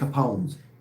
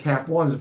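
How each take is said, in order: First: It is said as one word, Capone's. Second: It is said as two words, cap ones. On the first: The speaker calls it right. "It's Capone's" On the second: The speaker calls it wrong. "he was calling it Cap Ones"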